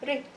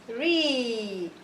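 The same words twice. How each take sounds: First: The vowel is short. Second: The vowel is held long. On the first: "Ra kasra what?" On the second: "I'm going to make the kasra longer because there's a long vowel"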